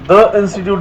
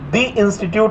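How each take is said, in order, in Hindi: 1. 'The' को 'thuh' की तरह बोला जाता है। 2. 'The' को 'thee' की तरह बोला जाता है। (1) "आपने द इंस्टीट्यूट नहीं सुना होगा" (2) "जैसे आपने सुना होगा"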